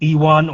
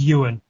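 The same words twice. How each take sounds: First: The name is said with an American pronunciation. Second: The name is said with a Scottish pronunciation. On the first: This is how outsiders tend to say the name. "most uh, people from the States pronounce it" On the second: This is how the name is really pronounced. "the pronunciation of my name um, is"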